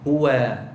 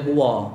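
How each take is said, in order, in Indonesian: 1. Bunyi w diucapkan ringan dan tipis. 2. Bunyi w diucapkan berat dan tebal. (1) "Yang betul nipiskan waw tu" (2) "jangan baca huwa. Huwa tu tak kena dekat waw tu. Tak kena dekat waw sebab kita baca tebal"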